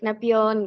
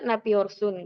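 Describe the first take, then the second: First: The word is clipped short at the end. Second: The word is said in its full form. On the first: This is the casual everyday way of speaking. "mereka sehari-hari Napion gitu, disingkat" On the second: This is the standard, formal way of speaking. "bahasa bakunya Napiorsun gitu"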